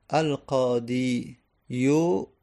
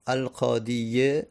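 First: Drawn-out "القادی یو" ending in a separate "yu"; heavy damma ending. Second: Slow "القادیه" ending in a "ye" sound; heavy kasra ending. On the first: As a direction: slowly sound the damma at the end of "القادی یو". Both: Shown as a demonstration. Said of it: "دمه و کسره روش سنگینه".

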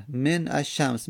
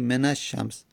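First: من الشمس slow and split, "men, ash-shams"; unlinked silent n. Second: من الشمس linked as "menash-shams"; n with fatha. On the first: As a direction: stop on the n of من before الشمس. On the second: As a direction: run من into الشمس with an a. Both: Shown as a demonstration. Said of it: "میگیم من الشمس".

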